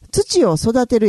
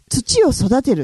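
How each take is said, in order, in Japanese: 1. 大阪弁のイントネーションで言われてる。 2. 標準語のイントネーションで言われてる。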